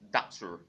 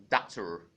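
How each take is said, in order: First: It is said in a General American accent. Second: The same.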